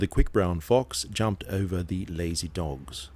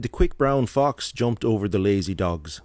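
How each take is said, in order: First: It is read in an English accent. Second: It is read in an Irish accent.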